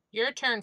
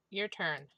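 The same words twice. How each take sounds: First: "Your turn" called out louder, falling on "turn". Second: Said in the usual way. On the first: Real, not acted.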